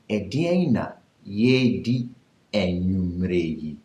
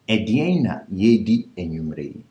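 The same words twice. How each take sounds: First: It is said slowly. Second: It is said at normal speed.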